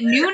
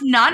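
First: The vowel is long, rhyming with 'soon'. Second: The vowel is short, rhyming with 'sun'. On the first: The speaker calls it wrong. "I've been pronouncing it Noon" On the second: The speaker calls it right. "Your last name is pronounced Nun"

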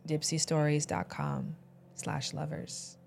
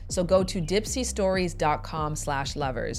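First: It is said in a sultry voice. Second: It is said in a plain voice.

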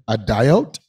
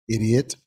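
First: The word is said like 'a diote'. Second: The word is said like 'idiot'. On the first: This is how it was first guessed from reading. The speaker calls it wrong. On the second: This is how it is normally said. The speaker calls it right.

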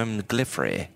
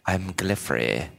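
First: The voice is plain, not raspy. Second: The voice is rough and raspy. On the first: The speaker calls it wrong. "It's like Bob's Australian accent" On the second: The speaker calls it right. "Spoiled Rich Kid has more of that raspy voice"

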